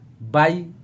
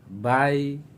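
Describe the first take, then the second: First: The syllable is said with an abrupt jolt. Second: The syllable is said softly and smoothly. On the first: The speaker calls it wrong. "sudah lari dari sifat" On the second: The speaker calls it right. "itu lembut, tidak bisa dihentak"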